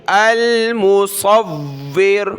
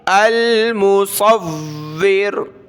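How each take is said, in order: The two takes are said the same way.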